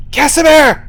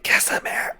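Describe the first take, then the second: First: Loud hushed call into the woods; whisper yelling. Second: Hushed call into the darkness; whispered call. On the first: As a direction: shout it but keep it breathy. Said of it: "You, like, whisper yell". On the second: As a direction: call out under your breath. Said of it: "And I'm like". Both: Acted.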